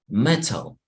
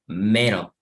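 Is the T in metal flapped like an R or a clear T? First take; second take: Clear T; Flapped. First: The T is a clear, crisp T sound. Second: The T is flapped, sounding like a quick R. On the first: "Si fuera como eh, inglés británico, entonces le diríamos metal" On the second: "like with the R, está la T en medio de dos vocales, entonces como R"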